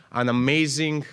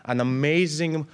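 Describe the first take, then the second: No difference in how they are said.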